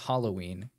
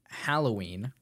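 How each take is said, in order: First: The first syllable sounds like 'hol' in hollow. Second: The first syllable sounds like 'hal' in hallow. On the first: The speaker calls it wrong. "not Halloween" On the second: The speaker calls it right. "It's pronounced Halloween"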